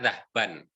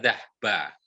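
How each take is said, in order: First: The word ends with an audible n sound. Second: The word ends on a vowel without n. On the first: This is the full written form. "tulisannya dhahban" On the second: This is how it is usually spoken. "biasanya pengucapannya dhahba"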